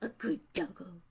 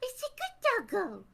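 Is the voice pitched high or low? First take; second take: low; high. First: It is said in a low, big-dog voice. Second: It is said in a high, little-dog voice.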